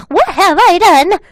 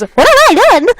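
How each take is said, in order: First: Higher, louder and slow hammed-up despair; anguished cry. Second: Much higher and louder hammed-up despair; anguished cry. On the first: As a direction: drag it out like an overdone anime lament. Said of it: "let's do that again". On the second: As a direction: wail it like a melodramatic anime hero. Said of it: "Tears filled my eyes".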